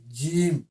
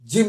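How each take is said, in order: First: The vowel is held long. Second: The vowel is short and clipped. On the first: The speaker calls it right. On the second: The speaker calls it wrong.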